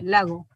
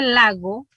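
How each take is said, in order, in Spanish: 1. La g es más suave, con casi nada de fricción. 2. La g tiene una fricción más fuerte en la garganta. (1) "un tanto más suave, entonces aquí se debería utilizar aproximante velar sonora" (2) "si usted dice lago, es la fricativa velar sonora"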